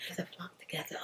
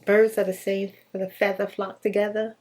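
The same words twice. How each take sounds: First: Breathy whisper, under the breath; whispered aside. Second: Said in the usual way. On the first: Shown as a demonstration. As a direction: mutter the saying to yourself in a whisper. Whispered repeat of the saying.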